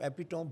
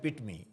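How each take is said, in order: First: The word ends with an 'om' sound. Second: The word ends with an 'ee' sound. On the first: The speaker calls it wrong. "यहाँ सारे कहते हैं एपिटॉम" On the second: The speaker calls it right. "एक word है एपिटमी"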